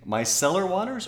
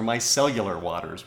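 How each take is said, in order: First: "micellar" said without a "yoo" sound, ending "sell-er"; "micellar" with just three syllables, my-SELL-er; pronunciation check. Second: "micellular" rhyming with "cellular"; "micellular" with an added "yoo", like a phone brand; cellular-style pronunciation. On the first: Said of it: "questioning the pronunciation". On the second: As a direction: say "micellular" as my-SELL-yoo-ler. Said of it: "sounds like a phone brand". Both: Shown as a demonstration.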